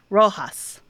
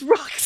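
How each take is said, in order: First: The name is given a Spanish pronunciation. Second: The name is given an American pronunciation. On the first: "the Spanish phonetic is" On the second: "the American pronunciation"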